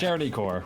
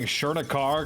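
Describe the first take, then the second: First: The last syllable sounds like 'kor'. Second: The last syllable sounds like 'kar'. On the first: The speaker calls it right. "but it is" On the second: The speaker calls it wrong. "I feel like I've been playing saying Chernikar because it looks like the name from Dune, the Sardaukar"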